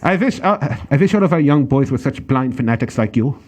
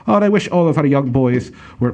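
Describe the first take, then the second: First: A mock German officer, a little more committed; hammed-up German accent, v for w in wish. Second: Hammed-up mock German accent; a clumsy stab at a German officer voice; bad German accent. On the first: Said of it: "How was that?". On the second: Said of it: "that's a horrible German accent".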